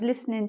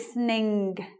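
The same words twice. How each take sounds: First: The final G sound is dropped entirely. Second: The final G is sounded clearly and strongly. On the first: The speech is relaxed and informal. "You don't hear the G there" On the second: This is a feature of some northern accents. "Some some of the accents uh, ring the G"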